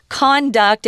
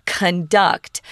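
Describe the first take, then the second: First: Slow "Conduct", stressed CON-duct; full open o and the beat on the first syllable of "Conduct". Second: Slow "conduct", stressed con-DUCT; weak first vowel in "conduct", beat on "duct"; stress on second syllable. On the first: Teacher contrasting noun and verb, first-syllable stress on "Conduct". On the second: Teacher contrasting verb with noun, second-syllable stress on "conduct". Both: Shown as a demonstration. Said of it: "pronunciation's different".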